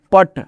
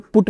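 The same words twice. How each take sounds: First: पट with a short a; correct reading. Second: पुट with a rounded u, the wrong way; wrong reading. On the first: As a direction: say पट short and open. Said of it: "पट, क्या?". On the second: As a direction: read पुट like put. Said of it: "को पुट नहीं पढ़ना है". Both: Shown as a demonstration.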